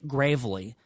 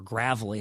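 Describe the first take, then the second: First: Gravely with a long A; first pronunciation. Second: Gravely with a short A; alternative pronunciation. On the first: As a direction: say Gravely as GRAYV-lee. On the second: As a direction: say Gravely like GRAV-uh-lee. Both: Shown as a demonstration. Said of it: "however you pronounce it".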